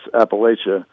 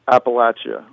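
First: It is said the northern regional way. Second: It is said the southern regional way. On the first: This is how people north of the line say it. "above the Mason-Dixon line, it's Appalachia" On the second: This is how people south of the line say it. "below the Mason-Dixon line, it's Appalachia"

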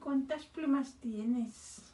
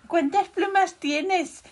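First: The question is said at a quieter volume. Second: The question is said at a louder volume.

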